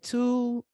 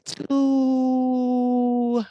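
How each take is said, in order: First: The word is said short, then a pause. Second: The word is drawn out long.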